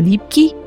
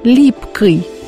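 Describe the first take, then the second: First: The ending is soft, like iy. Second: The ending is hard, like oy. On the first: This is the ordinary modern way of speaking. "вместо" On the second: This is the old Moscow way of speaking. "говорили твердо"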